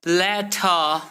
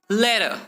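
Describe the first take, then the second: First: "letter" split as le-TAH; slow "letter" with a separate T; hard T. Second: "letter" joined as ledder. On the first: Teacher showing what to avoid, hard T in "letter". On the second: Teacher showing better flow, D sound in "letter". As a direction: make the T in "letter" a D. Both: Shown as a demonstration. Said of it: "replace T with D".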